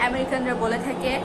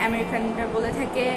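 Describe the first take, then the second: Both takes have the same delivery.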